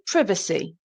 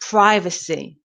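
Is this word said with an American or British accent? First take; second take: British; American. First: It is said in a British accent. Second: It is said in an American accent. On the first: "in British English, we say privacy" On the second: "And American English, they say privacy"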